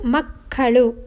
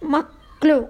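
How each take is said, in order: First: Every syllable is said in full. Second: A middle vowel is dropped, shortening the word. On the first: This is the formal written form. "ಗ್ರಾಂಥಿಕ ಭಾಷೆ" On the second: This is the everyday spoken form. "ಆಡು ಭಾಷೆ"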